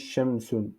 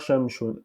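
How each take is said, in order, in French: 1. La consonne du milieu est un son s. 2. La consonne du milieu est un son sh. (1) "On dit shamsun" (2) "On dit pas shamshun"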